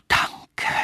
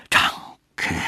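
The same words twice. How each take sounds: First: Rustling whisper. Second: Breathy rustling thanks; rustling whisper. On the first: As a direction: fade it like rustling leaves. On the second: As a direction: breathe it like leaves in wind. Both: A narrator's reading. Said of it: "rauschte der Baum".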